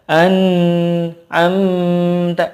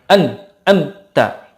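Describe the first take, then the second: First: The n sound is stretched too long. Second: The n sound is cut off abruptly. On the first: "terlalu panjang ... itu kepanjangan ekornya" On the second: "tidak boleh terlalu cepat"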